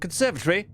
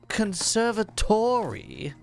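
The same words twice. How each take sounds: First: It is said in a British accent. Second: It is said in an American accent. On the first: "as the Brits would say" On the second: "What did this American say?"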